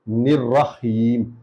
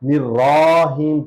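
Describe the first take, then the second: First: The first vowel is 'i', the 'ra' short. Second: The first vowel is 'i', the 'ra' long. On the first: The speaker calls it right. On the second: The speaker calls it wrong.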